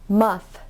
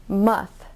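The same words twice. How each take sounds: The two takes are said the same way.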